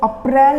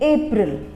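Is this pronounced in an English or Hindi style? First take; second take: Hindi; English. First: It is pronounced in a Hindi style. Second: It is pronounced in an English style. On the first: The speaker calls it wrong. "इसको अप्रैल नहीं बोलेंगे" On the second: The speaker calls it right. "इसको बोलेंगे अप्रैल, it is called अप्रैल"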